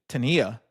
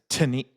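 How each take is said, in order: First: The stress is on the accented second syllable. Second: The stress is on the first syllable. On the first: The speaker calls it right. "you put a little bit more emphasis where that accent is" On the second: The speaker calls it wrong. "I've heard, heard, uh, say the word tenía as teni"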